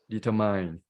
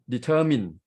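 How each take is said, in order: First: "determine" wrongly ending in "mine"; "determine" with a long "eye" in the last syllable; mispronounced ending. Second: "determine" as de-TER-min, short last syllable; "determine" stressed in the middle, ending like "min"; correct middle stress. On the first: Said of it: "not determine". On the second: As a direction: lean on TER in "determine", end on an unstressed "min". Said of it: "we stress at the middle". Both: Shown as a demonstration.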